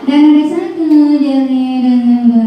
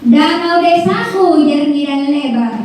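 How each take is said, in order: First: The line is read in a flat, plain tone. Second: The line is read with lively, varied intonation. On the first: The speaker calls it wrong. "Bukan misalnya" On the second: The speaker calls it right. "Ada intonasinya"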